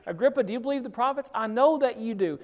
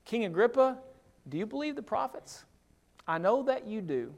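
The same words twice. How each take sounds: First: Quicker, pressing plea to the king; fast, insistent question; urgent appeal. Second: Softer, searching plea to the king; gently ask, then quietly affirm; soft sincere question; earnest appeal. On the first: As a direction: push the question home, fast. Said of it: "Right here in the middle of this". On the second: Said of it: "Verse twenty-seven". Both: Retold or imitated.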